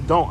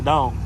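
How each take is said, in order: First: The word is said in a plain, neutral accent. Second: The word is said with a picked-up regional accent. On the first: "I don't say don't" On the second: "I say don't"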